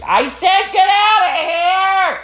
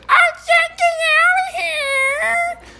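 First: Very high, drawn-out mock yell; mom yelling. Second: Extremely high, slow cockatoo screech; bird mimicking mom. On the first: Comic imitating mom yelling at dogs, high slow screech. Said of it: "usually she's yelling at dogs". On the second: Cockatoo copying mom's yell, squealing bird voice. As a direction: squawk it like a parroting bird, vowels dragged out. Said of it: "it mimics my mom, the tone and what she says".

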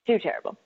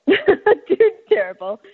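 First: Said in the usual way. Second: Laughing. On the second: Real, not acted. Repeats it laughing, drawn out.

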